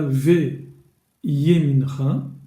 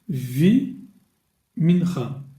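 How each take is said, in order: First: It begins with ve, then a separate ye. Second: It begins with vi, with no ye sound. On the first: The speaker calls it wrong. "je ne dirais pas ve yemincha, non" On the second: The speaker calls it right. "je dirais vi mincha"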